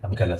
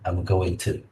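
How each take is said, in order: First: Going to is reduced to gonna. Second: Going to is said in full, unreduced. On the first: The speaker calls it right. "it provides a better flow of speech" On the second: The speaker calls it wrong. "instead of I'm going to"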